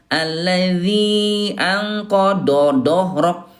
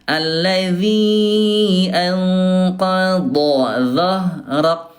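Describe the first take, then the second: First: The d-sound is plain, without tongue-side contact. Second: The d-sound is heavy, starting at the tongue's side. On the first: The speaker calls it wrong. "Jadi bukan" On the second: The speaker calls it right. "yang betul"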